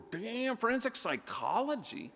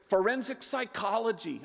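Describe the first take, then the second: First: High, amazed disbelief; surprised. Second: Quick. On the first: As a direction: gasp it out in surprise. Stunned reaction to daughter's answer. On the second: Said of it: "she was very quick". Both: Retold or imitated.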